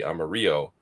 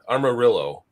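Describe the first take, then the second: First: The name is said with a Spanish pronunciation. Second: The name is said with an English pronunciation. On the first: "I would think the Spanish uh, pronunciation would be" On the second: "is how I believe this is pronounced"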